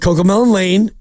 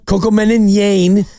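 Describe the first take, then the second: First: The last word begins with an L sound. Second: The last word begins with a Y sound. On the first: It is the real name of the show. The speaker calls it right. "It's Coco Melon Lane" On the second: A small child said it. The speaker calls it wrong. "Her L's are Y's"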